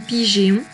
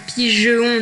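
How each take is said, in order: First: The E is sounded as an ay vowel. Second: The E is sounded as a short schwa. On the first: "ni pigéon" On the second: "qui ne se lit pas pigeon"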